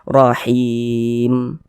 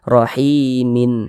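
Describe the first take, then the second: First: The word stops on a silent final m. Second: The word continues past m with an added -in. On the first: The speaker calls it right. "kalau kita berwakaf di huruf mim kita baca rahim" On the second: The speaker calls it wrong. "jangan dibaca rahimin"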